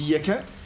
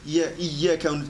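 First: The y sound is short, single. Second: The y sound is held long, doubled. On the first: It is the sun whom we worship. The speaker calls it wrong. "on dit l'astre" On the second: It is you whom we worship. The speaker calls it right. "au lieu de dire Iyyaka"

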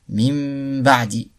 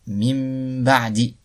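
Both takes have the same delivery.

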